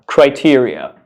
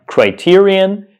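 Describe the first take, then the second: First: Criteria ending in an open -ee-uh; plural form criteria. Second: Criterion ending in -ee-un, higher and slow; singular form criterion. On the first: Teacher contrasts plural with singular for learners, criteria ending in -uh. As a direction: say "criteria" as cry-TEER-ee-uh, falling. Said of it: "The plural form is criteria". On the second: Teacher contrasts singular with plural for learners, criterion ending in -un. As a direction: say "criterion" as cry-TEER-ee-un, drawn out. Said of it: "So the singular form is criterion". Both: Shown as a demonstration.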